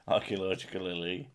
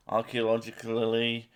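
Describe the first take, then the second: First: "Archaeologically" said again softer with a questioning rise; careful pronunciation, quieter. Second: "archaeologically" spelled out syllable by syllable; careful pronunciation. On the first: Repeating the word for a friend, softer and rising. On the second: Showing a friend how to say "archaeologically", careful and deliberate. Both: Shown as a demonstration. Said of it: "That's how you say that".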